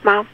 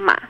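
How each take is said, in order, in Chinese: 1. 音高高而平。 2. 音高先降到低，再升起来。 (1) "一声" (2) "三声"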